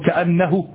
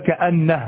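First: The final h is followed by a short u. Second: The final h has no vowel after it. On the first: The speaker calls it wrong. "يعني بالضمة فقط، هكذا فقط بالضمة نصف حركة" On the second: The speaker calls it right. "لابد أن تقول"

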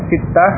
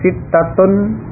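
First: The word ends with '-ah', without its case ending. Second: The word ends with its full '-atun' ending. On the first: "huruf akhir kalau dibaca sukun seperti itu tadi" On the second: "Kalau mau dibaca lengkap dengan harakatnya"

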